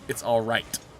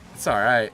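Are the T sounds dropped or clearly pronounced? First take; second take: clearly pronounced; dropped. First: The T sounds are pronounced hard and clear. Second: The T sounds are softened or dropped.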